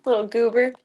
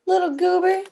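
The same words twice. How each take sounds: First: Said in the usual way. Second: Little goober pitched way up and louder; squeaky pet talk; high cutesy pet voice. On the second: Real, not acted. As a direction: coo it up high at the cat. Repeats to cat, second higher.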